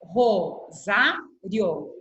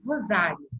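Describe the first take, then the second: First: "Rosário" very slowly, Ro-sá-rio; syllable by syllable. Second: Said in the usual way. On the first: Shown as a demonstration. Teacher dividing her surname "Rosário" for pupils, syllable by syllable. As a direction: split "Rosário" into three, keeping "rio" together. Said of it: "vou dividir em sílaba". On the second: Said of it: "o outro sobrenome que eu tenho".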